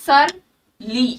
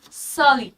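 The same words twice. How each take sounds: First: "surly" with the R clearly sounded, the mistaken way; wrong pronunciation. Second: "surly" slow, with the R silent, said like "suh-lee"; correct pronunciation. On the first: Teacher showing students the wrong way to say "surly" with R. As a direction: say "surly" as "sur-lee", pronouncing the R fully. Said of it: "pronunciation पे ध्यान देना". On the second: Teacher slowly modelling the correct "surly" with silent R. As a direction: draw out "surly" slowly and drop the R: "səli". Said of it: "R is kind of silent here". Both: Shown as a demonstration.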